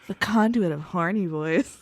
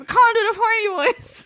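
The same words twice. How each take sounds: First: It is said in a put-on horny voice. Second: It is said in a normal voice.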